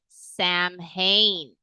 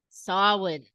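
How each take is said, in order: First: It is said as English spelling would suggest. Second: It is said with the Irish pronunciation. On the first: The speaker calls it wrong. "that is how I grew up pronouncing it" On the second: The speaker calls it right. "it is Samhain"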